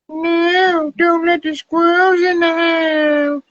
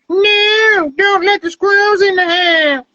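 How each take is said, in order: First: The voice is pitched lower. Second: The voice is pitched higher.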